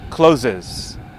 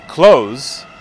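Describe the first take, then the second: First: It is two syllables, sounding like closes. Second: It is one syllable with a final z sound. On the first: The speaker calls it wrong. "about half of you said closes" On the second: The speaker calls it right. "then you sounded like I said it"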